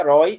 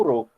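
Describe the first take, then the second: First: ROI with an open "ó"; o aberto. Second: RO with a closed "ô"; o fechado. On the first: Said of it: "soubesse que aqui era roi". (roi com ó aberto) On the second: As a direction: close the vowel in "ro". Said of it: "e não ro". (ro com ô fechado) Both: Shown as a demonstration.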